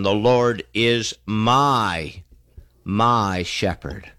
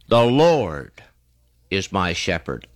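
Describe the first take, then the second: First: The stress is on my. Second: The stress is on Lord.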